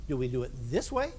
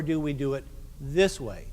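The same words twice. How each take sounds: First: Raised voice. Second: Lowered voice. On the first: Conductor asking band how to add emphasis, raised voice. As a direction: lift the voice up on the final words. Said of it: "do we raise our voice". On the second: Conductor showing band another way to emphasize, lowered voice. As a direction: drop low and weighty on the final words. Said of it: "or do I lower my voice". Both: Shown as a demonstration.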